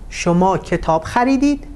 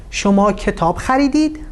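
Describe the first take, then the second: First: The pitch rises on the final verb. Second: The pitch rises on the final verb.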